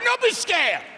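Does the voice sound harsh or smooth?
harsh. Said in a harsh, scolding Italian accent. It sounds like an irritated relative. "If my father was playing that part, it'd be totally different"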